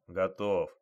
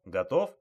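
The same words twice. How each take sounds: First: ГОТОВ falling, low-key confirmation; answering tune. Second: ГОТОВ rising sharply as a question; questioning tune. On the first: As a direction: confirm ГОТОВ with the pitch dropping at the end. Partner answers that he is ready. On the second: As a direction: ask ГОТОВ with the pitch climbing at the end. Officers check readiness before storming. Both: Acted.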